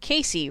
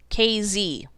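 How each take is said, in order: First: The middle consonant is a soft S sound. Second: The middle consonant is a Z sound. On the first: "the unisex name Casey" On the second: "the S was just too soft, so it's a Z now"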